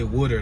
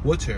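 First: It is said in a Philadelphia accent. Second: It is said with exaggerated, careful enunciation. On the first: "When we say water, that's like our accent" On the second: "That sounds like you pronunciating it too much"

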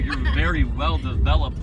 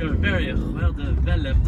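First: It is said in a plain English accent. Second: It is said in an exaggerated French accent. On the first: "And I say that, and it's really creepy" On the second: "it's so much more funnier with a French accent"

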